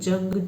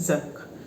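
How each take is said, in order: First: The word begins with a J sound. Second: The word begins with a Z sound. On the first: It means war. The speaker calls it wrong. "They just pronounce it jung" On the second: It means rust. The speaker calls it right. "But here this is zung"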